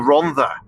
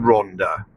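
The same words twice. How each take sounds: First: The middle consonant is a th sound. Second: The middle consonant is a plain d sound. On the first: The speaker calls it right. "two D's make a th, don't they? So it should, it's, it's the Rhondda" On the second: The speaker calls it wrong. "have you always called it the Rhondda?"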